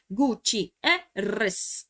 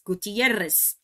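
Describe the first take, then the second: First: Gutierrez very slowly as Gu-ti-e-rrez; split into syllables. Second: Said in the usual way. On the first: Shown as a demonstration. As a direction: separate each syllable of Gutierrez. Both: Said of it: "isso aqui é uma palavra estrangeira".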